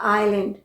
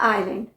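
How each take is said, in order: Both takes have the same delivery.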